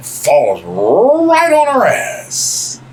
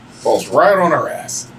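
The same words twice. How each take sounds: First: "right" stretched out very long, pitched up; slow, high comic build on "right"; drawn-out RIGHT. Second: Said in the usual way. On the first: Retold or imitated. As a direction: drag out "right" for the punchline. Drawn-out punchline, then repeated.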